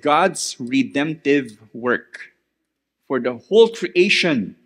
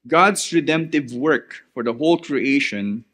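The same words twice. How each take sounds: First: It is said slowly. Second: It is said at normal speed.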